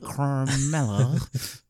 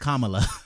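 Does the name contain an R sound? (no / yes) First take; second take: yes; no. First: The name is said with an R sound. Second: The name is said without an R sound. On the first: The speaker calls it wrong. "There's no R in her name. I'm like" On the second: The speaker calls it right. "No, it's Kamala"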